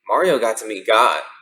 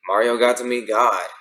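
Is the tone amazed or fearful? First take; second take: amazed; fearful. First: It is said with amazed, happy wonder. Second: It is said with fear and dread.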